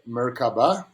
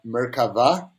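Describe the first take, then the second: First: The middle consonant is a b sound. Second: The middle consonant is a v sound. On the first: This is the commonly used form. The speaker calls it wrong. "Merkaba is uh, what people talk about" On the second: This is the original Hebrew form. The speaker calls it right. "Merkava is more the correct pronunciation"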